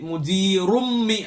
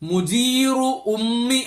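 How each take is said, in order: First: The vowel is dropped and the words run together. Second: The two words are separated with a full vowel.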